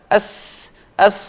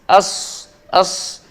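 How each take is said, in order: No difference in how they are said.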